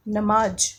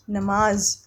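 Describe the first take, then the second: First: नमाज said with a hard j like jam; wrong-way demo of नमाज with ज not ज़; wrong pronunciation. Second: नमाज ending in a clear z sound; right way, नमाज with ज़ as z; correct pronunciation. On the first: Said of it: "नमाज तो नहीं होता". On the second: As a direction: end नमाज on a buzzing z. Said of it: "क्या होता है?". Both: Shown as a demonstration.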